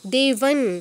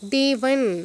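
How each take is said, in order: No difference in how they are said.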